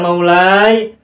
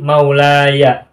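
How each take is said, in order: First: The final ya has no vowel after it. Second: The final ya is followed by an 'a' vowel. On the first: The speaker calls it wrong. "bukan sukun" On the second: The speaker calls it right. "ya mutakalimnya dibaca fathah"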